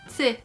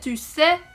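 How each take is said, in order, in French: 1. La voyelle de 'tu' est totalement omise. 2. La voyelle de 'tu' est bien prononcée. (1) "Quand on dit t'sais" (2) "ça veut dire tu sais"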